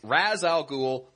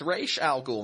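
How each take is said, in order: First: Ra's is pronounced as a plain English reading. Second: Ra's is pronounced in the non-English cartoon way. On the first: The speaker calls it right. "That's how you say the phrase" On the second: The speaker calls it wrong. "it was the mispronunciation that just gained some traction with the animated series"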